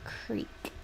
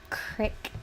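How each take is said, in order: First: The word has a long 'ee' vowel. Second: The word has a short 'i' vowel. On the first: The speaker calls it right. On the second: The speaker calls it wrong.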